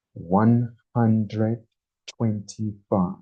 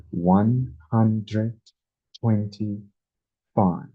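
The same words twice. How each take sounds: The two takes are said the same way.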